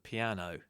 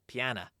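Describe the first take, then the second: First: The word ends with an 'oh' sound. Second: The word ends with an 'ah' sound. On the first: "which means the piano" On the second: "more common for people from the East End to pronounce it piana"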